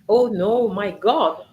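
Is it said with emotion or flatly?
with emotion. It is said with strong emotion.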